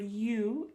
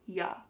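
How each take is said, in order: First: The vowel is a full, long 'oo' sound. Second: The vowel is a short, weak 'uh' sound. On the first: "the word you" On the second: "is reduced to ya"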